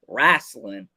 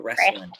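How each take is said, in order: First: The word has a local regional pronunciation. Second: The word has a standard general pronunciation. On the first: This is how the locals say it. "They say wrestling" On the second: This is not how the locals say it. "They don't say wrestling"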